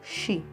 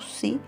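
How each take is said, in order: First: The syllable begins with a sh sound. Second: The syllable begins with a plain s sound. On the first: This is the correct pronunciation. The speaker calls it right. "a pronúncia correta é xi" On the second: This is how the Ephraimites said it. The speaker calls it wrong. "os efraimitas pronunciavam si"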